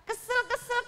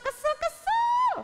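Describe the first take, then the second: First: Squeaky mock whine of Kesel, kesel; a childish sulk, pitched up; cartoonish pouting king; annoyed. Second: Kesel, kesel drawn out in a very high squeal; a tantrum squeal, slow and much higher; over-the-top whiny pouting; annoyed. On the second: Acted. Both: Sulking king.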